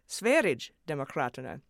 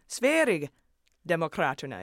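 First: The g is said as a j sound. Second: The g is said as a y sound. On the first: "I took to mean a J sound" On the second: "soft G like a Y sound"

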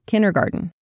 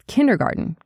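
First: The D and T sounds are barely heard. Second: The D and T sounds are barely heard.

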